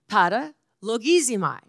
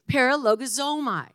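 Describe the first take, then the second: First: The word is said with an Italian flavor. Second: The word is said with a Texas twang. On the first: The speaker calls it right. "It's got a little Italian thing to it" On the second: The speaker calls it wrong. "It's a little bit of a Texas twang on it"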